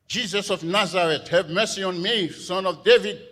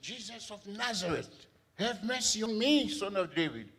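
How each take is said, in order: First: It is said loudly. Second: It is said at normal volume.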